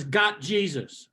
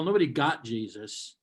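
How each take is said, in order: First: Got Jesus read slowly, stretched word by word. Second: Nobody got Jesus slowed, nobody hit hard; slow pointed nobody; stressed correction. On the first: Retold or imitated. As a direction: drag out Got Jesus like a sign. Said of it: "there's a bumper sticker on it that says". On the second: Shown as a demonstration. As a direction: lean on nobody to correct the sticker. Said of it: "first of all".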